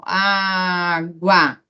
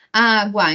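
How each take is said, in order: First: "água" drawn out slowly so the gu glide is heard; "água" said slowly, each sound clear; careful pronunciation. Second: Said in the usual way. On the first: Shown as a demonstration. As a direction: sound out "água" to show the semivowel. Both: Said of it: "quando eu falo assim".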